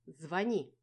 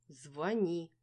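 First: Loud, sharp order; commanding order. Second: Stern order. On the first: Dinka to the heroine, loud commanding order. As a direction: bark the order at her. Friend demands she call. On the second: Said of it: "грозно свела брови Динка". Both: A narrator's reading.

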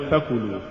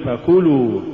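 First: فكلوا lower and much softer, fa stressed as a root letter; low, soft فكلوا with a pushed fa; wrong reading. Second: فكلوا slow, fa flowing into the word; correct reading. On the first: Teacher showing the mistaken فكلوا, low and soft. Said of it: "ولا تقل". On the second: Teacher modelling the correct فكلوا slowly. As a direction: read فكلوا as one smooth word. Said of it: "قل فكلوا". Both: Shown as a demonstration.

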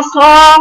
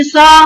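First: صا said full and heavy, tongue raised; the right صا filling the mouth; heavy sad with elevation. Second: صا said thin with a flat tongue; the wrong صا, light and thin; thin sad, no elevation. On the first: Teacher models the correct heavy صا. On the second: Teacher mimics a student's thin صا. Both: Shown as a demonstration. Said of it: "ما عملتوش فيها استعلاء".

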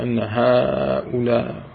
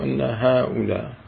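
First: "هؤلاء" with the first vowel drawn out; long madd. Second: "هؤلاء" with a shorter first vowel; shortened madd. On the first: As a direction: stretch the haa of "هؤلاء" before the hamza. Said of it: "من العرب من يقصرها". (مدّ الهاء في "هؤلاء") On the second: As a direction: keep "هؤلاء" short, without drawing out haa. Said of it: "شو الفرق". (قصر المد في "هؤلاء") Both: Shown as a demonstration.

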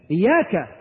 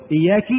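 First: Said in the usual way. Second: Wrong vowel, إياك with final "-ki"; kasra on the kaf. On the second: Shown as a demonstration. Teacher isolating the recitation error, إياك said "iyyaki". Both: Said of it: "بكسر الكاف".

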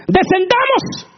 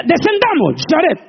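First: High, loud and slow descendamos; drawn-out mock divine call. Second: High, loud playful divine call; mock God speaking. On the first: Preacher drawing out God's Descendamos, slow and grand. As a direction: stretch Descendamos grandly and slowly. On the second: Preacher joking that God speaks to Jared, mock divine voice. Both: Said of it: "Y dice".

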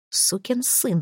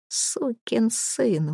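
First: Soft start to an angry threat; threatening curse. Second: Very slow, soft, bitter curse; low curse. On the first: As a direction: spit it at the boss. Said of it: "предупредил Джек". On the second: Jack cursing the boss after hearing the story, slow low curse. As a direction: drag the curse out quietly. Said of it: "выругался он". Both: Acted.

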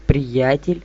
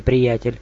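First: Hissed. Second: Said in the usual way. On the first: A narrator's reading. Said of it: "прошипел его".

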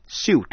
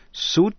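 First: "suit" said as "syoot", a y glide before the oo; "suit" as s-yoot, gliding into the vowel; suit, second way. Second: "suit" said as "soot", plain oo vowel; "suit" rhyming with boot, no glide; suit, first way. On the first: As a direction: read "suit" with a y sound after the s. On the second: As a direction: read "suit" like "soot" with no y sound. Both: Shown as a demonstration. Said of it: "Chữ suit có hai cách đọc".

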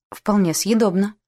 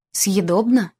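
First: Съедобно as a measured, reserved verdict; restrained approval. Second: Съедобно thrown back as a challenging question; incredulous echo. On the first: Sir Anthony judging the ship's food, restrained. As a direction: grant that it is съедобно, with mild reserve. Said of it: "сдержанно отзывался сэр Энтони". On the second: Sir Finley disputing his companion's verdict, incredulous. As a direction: query съедобно as if it were far too faint praise. Uncle challenges the faint praise. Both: A narrator's reading.

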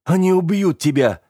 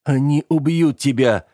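First: Urgent hiss, pitched high; hissed warning. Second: Begging, pitched high; pleading again. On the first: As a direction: spit the warning out in fear. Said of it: "прошипел я". (прошипеть с ужасом) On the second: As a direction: plead to make him stay. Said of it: "взмолился я вновь". (взмолиться снова) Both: A narrator's reading.

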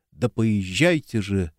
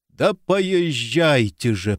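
First: Said in the usual way. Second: Slow, pained groan; wounded man groans at them to go. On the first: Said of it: "собственный стон и слова". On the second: A narrator's reading. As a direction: drag the words out through pain. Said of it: "простонал Леонид".

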